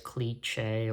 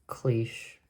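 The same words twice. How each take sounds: First: The word is said with a hard ch sound. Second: The word is said without a hard ch sound. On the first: The speaker calls it wrong. "I used to pronounce cliche as cliche or some derivation that uh, kept the ... ch sound" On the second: The speaker calls it right. "it's cliche"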